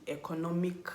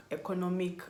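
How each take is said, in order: Both takes have the same delivery.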